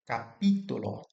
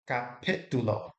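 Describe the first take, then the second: First: The vowel after the p sounds like 'ee'. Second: The vowel after the p sounds like 'ih'. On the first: The speaker calls it right. "it needs to be pronounced like it always is in Spanish" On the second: The speaker calls it wrong. "in English, sometimes the I is pronounced like that, like igloo"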